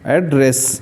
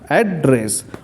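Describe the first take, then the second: First: The stress is on the second syllable. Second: The stress is on the first syllable. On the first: It is used as a verb. "Verb के रूप में तो रेस पे जोर होगा, एड धीरे से बोलेंगे" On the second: It is used as a noun. "Noun के रूप में तो एड पे जोर होगा"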